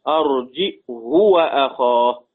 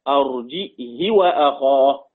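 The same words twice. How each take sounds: First: It has a glottal stop and a short u after h. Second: It has a glottal stop and a short i after h. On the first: "بضم الهاء وقصرها" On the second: "همزة وكسر وقصر"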